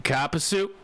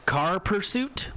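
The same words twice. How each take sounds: First: "copper suit" with r dropped, car pursuit as copper suit; Boston accent. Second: Said in the usual way. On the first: Shown as a demonstration. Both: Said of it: "but in a Boston accent".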